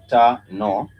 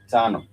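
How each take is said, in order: First: TANO slowly split into ta and no, louder, rising; two syllables. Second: Said in the usual way. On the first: Shown as a demonstration. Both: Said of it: "two syllable word".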